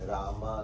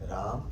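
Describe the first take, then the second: First: The word ends with an added long 'aa' vowel. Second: The word ends without an added 'aa' vowel. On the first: It names a woman. The speaker calls it wrong. "रामा नहीं, रामा એટલે a lady" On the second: It names the son of Dasharatha. The speaker calls it right. "રામ એટલે દશરથનો દીકરો"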